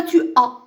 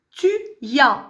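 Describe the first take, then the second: First: "tu as" with no y glide before "as"; liaison missing. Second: "tu y as" linked with a y glide; liaison marked. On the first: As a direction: say "tu as" as two bare vowels, unlinked. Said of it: "C'est pas tu as". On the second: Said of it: "Il faut marquer la liaison". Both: Shown as a demonstration.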